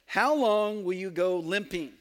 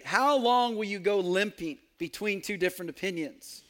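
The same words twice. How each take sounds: First: Reading the line while cracking up; words half-swallowed by a real laugh; laughing through it. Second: Said in the usual way. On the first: Real, not acted. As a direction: giggle through the question as it gets the better of you. Quote breaks into laughter.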